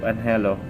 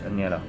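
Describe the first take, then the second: First: The n and h are sounded separately. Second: The middle is sounded like 'ny'. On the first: The speaker calls it wrong. "Instead of anhelo" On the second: The speaker calls it right. "it is pronounced as Enyi"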